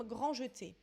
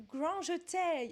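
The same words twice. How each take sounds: First: Said in the usual way. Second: "grand jeté" slowly in a mock English accent. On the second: Quiz reader playfully anglicises a ballet term, English accent. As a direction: say "grand jeté" like an English speaker, ending "-tay". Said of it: "le dire avec un accent anglais".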